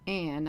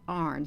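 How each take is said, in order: First: The word is said like 'an', without an r. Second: The word is said like 'arn', with an r. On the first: The speaker calls it wrong. "was not pronounced An" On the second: The speaker calls it right. "the An was pronounced Arn"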